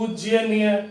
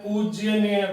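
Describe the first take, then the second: The two takes are said the same way.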